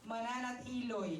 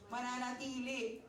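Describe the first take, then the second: First: The word ends with an 'oy' sound. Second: The word ends with an 'ee' sound. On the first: This is how someone else actually said it. The speaker calls it wrong. "Mananatiloy daw yung pagkakasabi niya" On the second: This is the word that was meant. The speaker calls it right. "pero ang gusto niya sabihin is"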